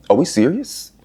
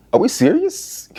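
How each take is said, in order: First: Said in the usual way. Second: Much higher, rising disbelief; incredulous squeak. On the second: Acted. Asking viewers about Gabe: high, incredulous rise. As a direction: shoot the pitch up in outrage.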